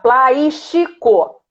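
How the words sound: The s and t sound like sh and ch. The speaker calls it wrong. "se a gente fala no Rio de Janeiro, a gente vai falar plástico"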